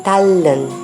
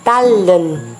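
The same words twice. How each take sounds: First: The middle consonant is a liquid L sound. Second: The same.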